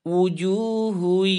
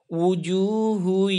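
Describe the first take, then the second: The two takes are said the same way.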